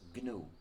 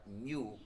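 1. Empieza con un sonido g fuerte. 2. Empieza con un sonido ñ. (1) "se pronuncia normalmente en inglés GNU" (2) "como si comenzara por ñ"

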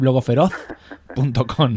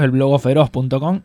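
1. Se dice con acento peninsular, la z como th. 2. Se dice con acento canario, la z como s. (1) "y para los peninsulares" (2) "Para los canarios"

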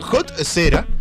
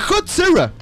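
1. Tiene una pronunciación al estilo español. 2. Tiene una pronunciación al estilo inglés.

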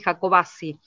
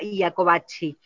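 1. El nombre se pronuncia a la manera española local. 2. El nombre se pronuncia a la manera italiana original. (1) "nosotros los jacobacinos lo pronunciamos así" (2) "en Italia sí, efectivamente era Iacobacci"

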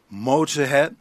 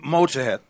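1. La palabra se dice despacio. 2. La palabra se dice rápido.

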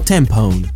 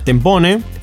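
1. Se dice el nombre de una forma no argentina. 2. Se dice el nombre al estilo argentino. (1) "Y si no, tempone" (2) "si es argentina es tempone"

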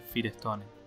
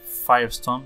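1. Se pronuncia como se lee en español. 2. Se pronuncia a la inglesa. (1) "se dice Firestone" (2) "acá no se dice Firestone"

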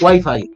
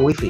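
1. Wi-Fi se pronuncia como en Latinoamérica. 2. Wi-Fi se pronuncia como se dice en España. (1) "Otros decís Wi-Fi" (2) "aquí se dice Wi-Fi"

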